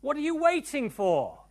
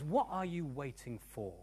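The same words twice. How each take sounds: First: "waiting" punched high and loud in "What are you waiting for"; high, loud challenge with stress on "waiting"; shifted emphasis. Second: "what are you waiting for" said softly, leaning lightly on "what"; first take, even emphasis. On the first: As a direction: throw the question out forcefully, hitting "waiting". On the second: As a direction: pose "what are you waiting for" quietly, without punching "waiting". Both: Shown as a demonstration. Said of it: "put the emphasis on a different syllable".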